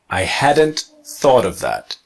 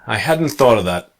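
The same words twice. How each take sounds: First: Hadn't is contracted with an audible T. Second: Hadn't is contracted with a silent T.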